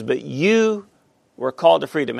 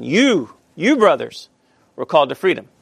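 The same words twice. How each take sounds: First: Said in the usual way. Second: "You, you brothers" punched, the repeated "You" leaned on firmly; emphatic stress on You. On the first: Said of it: "but here he uses the pronoun". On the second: Shown as a demonstration. Teacher to Bible class, stressing "You" in Paul's verse. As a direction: hit "You" hard both times, then let "were called to freedom" land. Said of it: "he's very, very emphatic".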